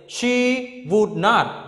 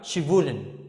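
First: The words are said fully, as three separate words. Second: The words are contracted and said more quickly. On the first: "I say, she would not" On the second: "when we short it, you can have, she wouldn't"

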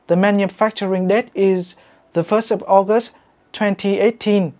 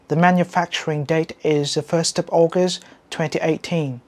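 First: It is spoken with a Vietnamese-style accent. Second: It is spoken with a standard English accent. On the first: The speaker calls it wrong. "giọng kiểu Việt" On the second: The speaker calls it right. "giọng chuẩn"

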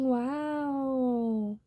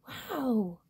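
First: It sounds grudging and insincere. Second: It sounds genuinely happy and impressed.

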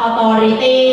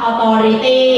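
First: Spoken in a Thai-style English accent. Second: Spoken in a Thai-style English accent.

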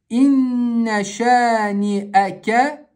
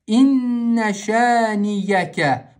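First: A glottal stop comes before the final syllables. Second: A y sound comes before the final syllables. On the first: The speaker calls it right. "читаем четко хамзу с фатхой" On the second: The speaker calls it wrong. "читают по привычке... букву Я, вот так"

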